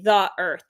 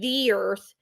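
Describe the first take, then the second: First: The two words are kept apart, not blended. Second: The two words blend into one word. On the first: The speaker calls it right. "you're supposed to say the earth" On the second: The speaker calls it wrong. "when it blends, it sounds like one one word"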